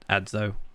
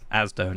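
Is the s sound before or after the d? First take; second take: after; before. First: The s sound comes after the d. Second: The s sound comes before the d. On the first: This is the way others say the name. The speaker calls it right. "not Ad, Adzo" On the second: This is the habitual way the speaker says the name. The speaker calls it wrong. "in my mind, he is Asdo"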